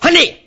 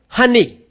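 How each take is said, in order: First: It is said in a harsh, demanding tone. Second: It is said in a gentle, kind tone. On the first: The wife is being ordered around. The speaker calls it wrong. "But you demand" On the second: The wife is addressed with honor. The speaker calls it right. "you need to call your wife"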